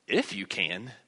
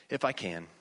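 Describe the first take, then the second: First: "If" punched and lifted, rest falling low; stress on "If". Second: Said in the usual way. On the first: Shown as a demonstration. Preacher showing how he reads Jesus' reply, stress on "If". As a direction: lean hard on "If", questioning the condition. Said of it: "that's how I read it". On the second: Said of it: "I read it in a normal voice".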